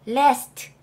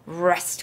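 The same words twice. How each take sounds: First: It begins with a light L sound. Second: It begins with a heavy R sound. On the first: The speaker calls it wrong. "l이었다면 밖에서 소리가 나고요. 혀가 입천장에 붙어요" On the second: The speaker calls it right. "이거는 그렇게 가벼운 소리가 나는 게 아니기 때문에"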